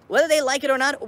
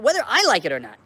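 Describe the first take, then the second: First: They lifted high and loud; stress on they. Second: I punched, loud, set against they; stress on I. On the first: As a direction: lean hard on the word they. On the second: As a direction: hit the word I. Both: Real, not acted.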